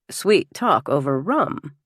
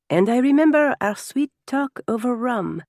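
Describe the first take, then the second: First: Slow, questioning husband's echo; suspicious echo. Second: Put-on higher, fond French-accented reminiscence; fond French guest. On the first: Acted. Husband queries guest's words to his wife, slow and suspicious. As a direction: repeat it slowly, as a jealous challenge. Husband echoes it with raised brow. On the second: French guest recalls time with hostess, higher and fondly teasing.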